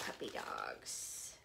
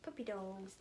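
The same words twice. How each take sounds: First: Breathy whispered coo, slow; hushed delighted whisper. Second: Said in the usual way. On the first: Real, not acted. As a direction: breathe it out in awe. Cooing over a puppy print.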